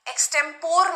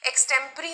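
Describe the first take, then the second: First: The word ends with an 'or' sound. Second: The word ends with an 'ee' sound. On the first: The speaker calls it wrong. "एक्सटेम्पोर नहीं बोलते इसको, अगर आप लोग उसका sound एक्सटेम्पोर बोलते हो तो गलत बोलते हो।" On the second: The speaker calls it right. "एक्सटेम्परी होता है।"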